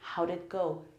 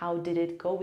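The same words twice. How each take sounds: First: The words are reduced and linked together. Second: Each word is said separately and fully. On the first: "in American English ... we say" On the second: "instead of saying"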